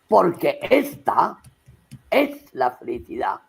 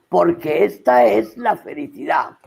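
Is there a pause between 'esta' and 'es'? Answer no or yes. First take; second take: yes; no. First: There is a pause between esta and es. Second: Esta and es run together without a pause. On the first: The vowels are kept apart, giving the line more force. "haces una pausa entre esta y es" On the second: The vowels are merged as the meter intends. "que no es lo mismo que decir"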